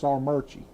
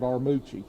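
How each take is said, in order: First: An R sound is added in the middle syllable. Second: The middle syllable has no R sound. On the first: This is how locals say the name. "up there, it's Armurchie. They throw an R" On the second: This is how the name looks written. "spelled Armucci"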